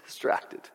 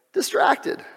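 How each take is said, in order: First: Breathy unvoiced whisper of the word Distracted; a hushed whispered Distracted. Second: High exclaim. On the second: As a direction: fling Distracted up high. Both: Shown as a demonstration. Repeats the word two ways.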